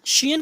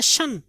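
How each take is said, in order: First: शियन in two syllables, "shi-yan"; wrong ending. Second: शन as one short "shun"; correct ending. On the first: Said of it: "की आवाज़ निकालते हैं". (शियन को दो हिस्सों में "शि-यन") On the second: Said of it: "की आवाज़ निकालते हैं शन". (शन, एक ही छोटा हिस्सा) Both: Shown as a demonstration.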